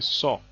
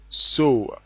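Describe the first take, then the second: First: The vowel sounds like the one in saw. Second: The vowel sounds like the one in sew. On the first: The speaker calls it wrong. "they say saw" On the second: The speaker calls it right. "like the the word sew for sewing a cloth"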